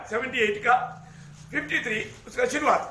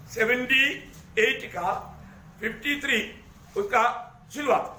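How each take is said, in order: First: Said in the usual way. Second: Verse reference in separated chunks with pauses; dictating, piece by piece. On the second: Real, not acted. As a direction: read it out for people looking it up, pausing after each part. Repeats reference for people finding it. (टुकड़ों में, रुक-रुक कर बोलना)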